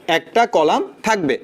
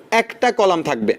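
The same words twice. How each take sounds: First: Slower emphasis. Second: Slow emphasis. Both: Shown as a demonstration. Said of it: "slow repeat for emphasis".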